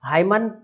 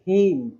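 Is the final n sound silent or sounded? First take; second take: sounded; silent. First: The word ends with an added n sound. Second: The word ends on an m sound. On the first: The speaker calls it wrong. "अब इसको क्या पढ़ते हैं लोग" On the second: The speaker calls it right. "अरे इस तरीके से नहीं बोलना है"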